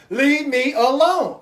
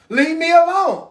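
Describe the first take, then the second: First: Slow, drawn-out leave me alone; weary plea. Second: Loud, higher, fed-up leave me alone; fed-up snap. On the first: Exhausted parent begging for rest, slow and weary. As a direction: drag it out, too tired to fight. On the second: Worn-out parent pushing kids away, loud and fed up. Tired parent wants rest. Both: Retold or imitated.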